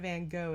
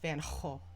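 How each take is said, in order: First: Gogh starts with a hard G sound. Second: Gogh starts with a throaty H sound. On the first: The speaker calls it wrong. "that's not how the G is pronounced" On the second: The speaker calls it right. "the G is actually pronounced like ho"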